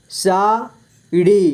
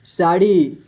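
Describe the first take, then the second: First: sari split slowly into सा, ड़ी; syllable by syllable. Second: Said in the usual way. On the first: Shown as a demonstration. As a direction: stretch and separate सा and ड़ी in sari. (Sari को तोड़कर धीरे: सा, ड़ी) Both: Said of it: "इस तरह से आपको".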